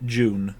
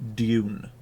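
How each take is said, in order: First: The word begins with a 'j' sound. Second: The word begins with a clear 'd' sound. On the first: This is the Northern English way. "we would pronounce it June, but that's because we're sort of Northern English" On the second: This is the American way. "An American would pronounce it Dune"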